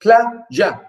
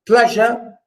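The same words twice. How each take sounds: First: "Pleasure" broken in two, plea - sure, with a gap; teacher's syllable count on "Pleasure", each half set apart; split into syllables. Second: Said in the usual way. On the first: Shown as a demonstration. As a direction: sound out "Pleasure" as two separate beats. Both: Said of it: "pleasure, too".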